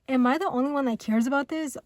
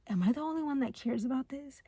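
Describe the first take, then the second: First: It sounds annoyed and accusing. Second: It sounds worried and unsure. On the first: The other person is failing to make an effort. "but you're you're like, huh, like why aren't you doing anything?" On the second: The speaker fears caring more than the other. "this person's overthinking it"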